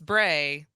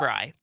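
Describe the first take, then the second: First: The vowel sounds like the one in 'day'. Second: The vowel sounds like the one in 'dry'. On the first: This is how people usually misread the name. The speaker calls it wrong. "thinks it's Bray" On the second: This is the name's actual pronunciation. The speaker calls it right. "it's Bry"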